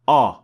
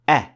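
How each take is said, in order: First: The sound is heavy and full. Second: The sound is light and thin. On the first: The speaker calls it wrong. "not a" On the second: The speaker calls it right. "Hamza is an empty mouth letter. So we say a"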